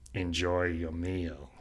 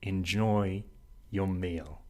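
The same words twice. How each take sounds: First: It is said in a threatening way. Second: It is said with warm, enchanted feeling.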